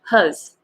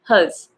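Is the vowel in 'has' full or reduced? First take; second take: reduced; reduced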